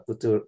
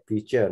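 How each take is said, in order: First: "future" with a hard t in the middle; wrong pronunciation. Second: "future" with a ch sound in the middle; correct pronunciation. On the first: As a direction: say "future" as FOO-tur, no ch sound. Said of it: "not future". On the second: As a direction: model "future" with a ch, not a t. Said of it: "you must improve your pronunciation". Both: Shown as a demonstration.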